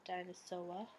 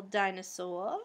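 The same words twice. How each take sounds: First: Said in the usual way. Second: Boston accent on dinosaur, r dropped to dinosaw-uh. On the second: Real, not acted. Vlogger noticing her Boston accent slip out. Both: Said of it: "It's my Boston accent coming out".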